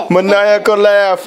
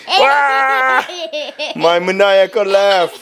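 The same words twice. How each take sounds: First: Said in the usual way. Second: Laughing through the words like a villain; unhinged villain laugh. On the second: Pretend. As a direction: cackle it out, a touch of mad villain. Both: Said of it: "My evil laugh".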